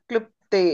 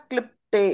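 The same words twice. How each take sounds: The two takes are said the same way.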